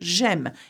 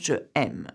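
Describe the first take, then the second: First: The vowel of je is dropped before aime. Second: The vowel of je is kept before aime. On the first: The speaker calls it right. "we drop the E of this um, subject pronoun and to make it sound better" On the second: The speaker calls it wrong. "instead of"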